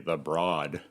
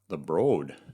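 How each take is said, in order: First: Broad has the vowel sound of Broadway. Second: Broad has a vowel unlike Broadway's. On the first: The speaker calls it wrong. "they'll judge you in Los Angeles if you say the Broad, like Broadway" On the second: The speaker calls it right.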